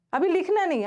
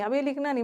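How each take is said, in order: First: High and loud, a sharp stop to the class; firm loud warning. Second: Said in the usual way. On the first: Real, not acted. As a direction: call out so nobody writes yet. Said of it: "teacher stops class writing". (ऊँची और तेज़ आवाज़ में रोकना) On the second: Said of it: "same warning repeated".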